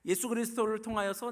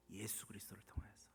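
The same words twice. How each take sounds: First: High, loud, proclaiming; emphatic declaration. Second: Low, very soft, near whisper; hushed answer. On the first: Preacher repeating through whom God loves, emphatic. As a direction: lift it up and proclaim it. Same answer repeated with raised force. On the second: Preacher answering through whom God loves, hushed. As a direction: drop the answer almost to a whisper. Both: Real, not acted.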